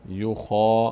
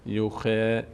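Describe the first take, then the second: First: The vowel after kh is full and heavy. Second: The vowel after kh is thin and light. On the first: The speaker calls it right. "ببینید دهان به سمت بالا باز میشه" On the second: The speaker calls it wrong. "نمیگیم یوخه یوخه"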